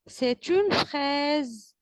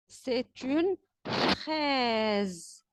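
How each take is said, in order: First: Said in the usual way. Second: Very slow, each syllable stretched out; drawn-out model sentence; slow teaching voice. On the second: Shown as a demonstration. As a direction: lay it out slowly for the children. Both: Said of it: "teacher models a word to repeat".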